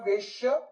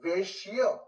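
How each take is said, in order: First: A full vowel follows the 'sh' sound. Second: The 'sh' sound joins straight onto 'y'. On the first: The speaker calls it wrong. "श को श आ जाएगा तो वो गलत उच्चारण" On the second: The speaker calls it right. "आधा श अधिक य"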